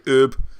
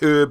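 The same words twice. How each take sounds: First: The word is said the American way. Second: The word is said the British way. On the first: "In America, you say herb" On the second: "in Britain, you tend to say herb"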